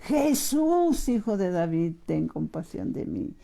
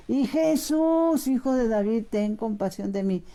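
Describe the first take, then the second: First: A blind man's mock cry, falling away; retold cry for mercy. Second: Slow, stretched, high Jesús, then sinking into a plea; retold drawn-out cry. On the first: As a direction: call out Jesús, then let the voice drop and beg. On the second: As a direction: drag out the call to Jesús and let it fade. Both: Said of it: "le empieza a gritar".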